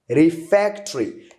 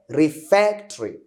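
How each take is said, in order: First: The 'o' after the 't' is silent. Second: The 'o' after the 't' is silent.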